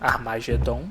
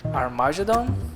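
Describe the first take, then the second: First: It is pronounced with Portuguese sounds. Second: It is pronounced with English sounds.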